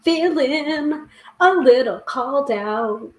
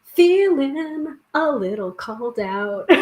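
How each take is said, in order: First: Drawn out slowly, a little sheepish; slow, wry admission; slow rueful drawl. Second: Slow, breaking into real laughter; sheepish real laugh. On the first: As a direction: stretch Feeling a little called out slowly, like you've just been caught. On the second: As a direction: say Feeling a little called out slowly and let it collapse into a laugh. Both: Real, not acted. Reacting to the card's message.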